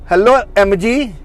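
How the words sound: It is said in a different, put-on accent.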